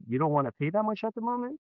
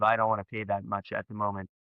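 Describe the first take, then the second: First: Quick echo climbing high to the end of "moment"; higher, faster, questioning lift on "at the moment"; mirroring question. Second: Lower, softer statement, level through "moment"; understated objection, settling low on "moment"; customer's price objection. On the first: Shown as a demonstration. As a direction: repeat it back as a question, rising steeply through "moment". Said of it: "That's a good example there". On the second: Acted. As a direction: state it quietly, no lift on "moment". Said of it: "customer giving you a price rejection".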